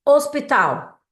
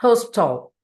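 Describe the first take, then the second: First: Hospital said the Portuguese way, silent h, os-pee-TAL; Hospital with no h sound and stress on the last syllable, tal; Hospital as a Brazilian says it; Portuguese pronunciation. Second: Hospital with a breathy h and stress on the first syllable, HOS-pital; Hospital said the English way, HOS-pi-tl, with a clipped ending; Hospital in English, h sounded; English pronunciation. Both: Shown as a demonstration. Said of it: "você tem que lembrar totalmente em inglês".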